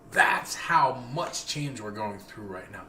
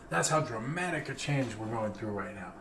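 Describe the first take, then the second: First: Slow emphatic. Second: Said in the usual way. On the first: Real, not acted.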